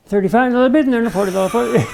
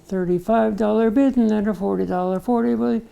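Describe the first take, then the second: First: Rapid-fire auctioneer chant; rattled off. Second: Slow, deliberate auctioneer chant; slow motion. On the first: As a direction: rattle it off at top speed. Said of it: "they rattled it right off". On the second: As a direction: spell it out word by word. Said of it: "in slow motion". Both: Retold or imitated.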